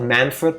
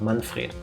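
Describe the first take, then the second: First: The name is said with an English accent. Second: The name is said with a German accent. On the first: The speaker calls it wrong. "Not Manfred" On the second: The speaker calls it right. "with a German like pronunciation"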